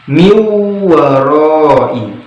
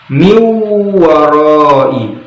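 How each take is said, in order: The two takes are said the same way.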